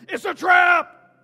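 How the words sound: It is yelled in an Admiral Ackbar impression.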